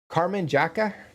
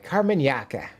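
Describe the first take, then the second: First: The second word begins with a J sound. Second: The second word begins with a Y sound. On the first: The speaker calls it wrong. "hopefully I've been pronouncing the group right" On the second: The speaker calls it right. "That is a, a Y sounding J sound"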